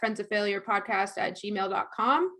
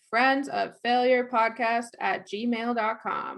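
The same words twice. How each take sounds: First: The address is said quickly. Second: The address is said slowly.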